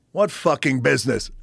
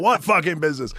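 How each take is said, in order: First: Incredulous gruff bark. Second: High, loud scoffing question; loud mock disbelief, higher pitched; mocking incredulous bark. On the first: Retold or imitated. Pat scoffing at the young caller. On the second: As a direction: throw it back at him like everyone did. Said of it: "Everybody's like".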